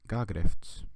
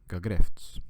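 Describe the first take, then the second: First: The stress is on the first syllable. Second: The stress is on the second syllable. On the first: The speaker calls it wrong. "Instead of saying gagrefts" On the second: The speaker calls it right. "All the stress goes on the second syllable"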